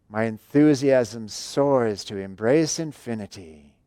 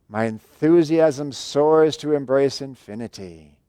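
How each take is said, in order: No difference in how they are said.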